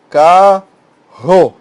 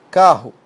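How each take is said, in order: First: Carro split loudly into CA, pause, RRO; carro in two held, punched syllables. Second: Said in the usual way. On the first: Shown as a demonstration. Teacher separating syllables for students, carro split in two, loud. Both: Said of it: "Separa em sílabas".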